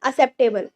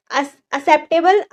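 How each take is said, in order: First: Said in the usual way. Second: Acceptable spelled out slowly, syllable by syllable; slow demo pronunciation. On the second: Shown as a demonstration. (धीरे-धीरे उच्चारण)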